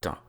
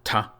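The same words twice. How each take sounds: First: The consonant has no extra puff of air. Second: The consonant has an extra puff of air. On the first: "instead of" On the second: "they get an extra bit of air pushed out with them, as in ta"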